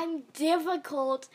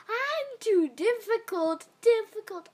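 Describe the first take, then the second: First: Said in the usual way. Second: Exaggerated mocking. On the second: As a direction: stretch it out to tease.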